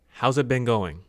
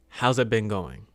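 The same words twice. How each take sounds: The two takes are said the same way.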